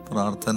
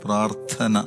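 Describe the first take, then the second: First: The word is said weakly, without force. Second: The word is said with strong force. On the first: The speaker calls it wrong. "വെറുതെ അങ്ങോട്ട് പറഞ്ഞു കഴിയുമ്പോൾ അതിനൊരു ശക്തിയില്ല" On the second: The speaker calls it right. "കുറച്ചും കൂടി force കൊടുത്തോണ്ട്"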